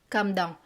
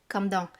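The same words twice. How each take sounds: Both takes have the same delivery.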